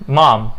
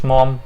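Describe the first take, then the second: First: MOM with long "ah", like "mahm"; open vowel demo. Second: MOM with a rounded "o"; wrong vowel demo. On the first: Teacher modelling the right word, open-vowel MOM. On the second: Teacher showing what to avoid, rounded-vowel MOM. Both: Shown as a demonstration. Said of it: "مش mom".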